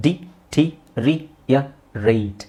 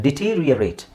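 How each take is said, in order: First: Very slow ಡಿಟೀರಿಯರೇಟ್, a pause after every syllable; slow teacher's sounding-out of ಡಿಟೀರಿಯರೇಟ್. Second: Said in the usual way. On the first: Shown as a demonstration. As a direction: break it up di - tee - ri - ya - rate. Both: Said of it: "ಇದನ್ನ ಹೇಗೆ ಹೇಳೋದು".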